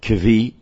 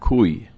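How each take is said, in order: First: The word is said with a v after k. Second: The word is said with a vowel after k. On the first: The speaker calls it wrong. "there are those who pronounce it kvi because it's spelled kaf vav yud" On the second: The speaker calls it right. "it seems that the correct pronunciation is koi or kui"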